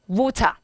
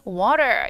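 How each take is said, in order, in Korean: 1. 영국식 억양으로 말해요. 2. 미국식 억양으로 말해요.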